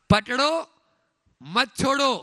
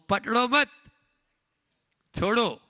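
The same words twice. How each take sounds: First: The pause comes after the first word. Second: The pause comes after the second word. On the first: Hold on and do not let go. "ये है संसार मार्ग" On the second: Do not hold on; let go. "ये है मोक्ष मार्ग"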